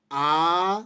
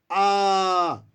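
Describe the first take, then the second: First: आ held long and loud. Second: आ stretched extra long and louder; prolonged pluta aa. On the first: Teacher demonstrates the long vowel to the class, loudly. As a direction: sustain आ for two measures. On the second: Teacher shows the three-measure आ like a call. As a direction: call आ out, drawn as far as it goes. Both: Shown as a demonstration. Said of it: "अब जैसे उ".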